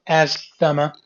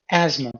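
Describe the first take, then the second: First: Asthma said with a th sound: "asthma" as az-thu-ma; wrong pronunciation. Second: "asthma" said as az-ma, no th; correct pronunciation. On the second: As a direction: say "asthma" correctly: az-ma, short and clean. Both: Shown as a demonstration. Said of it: "this is not asthma".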